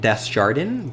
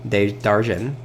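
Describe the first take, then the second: First: The name is said with an English pronunciation. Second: The name is said with a French pronunciation. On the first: The speaker calls it wrong. "I was pronouncing it" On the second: The speaker calls it right. "the French pronunciation"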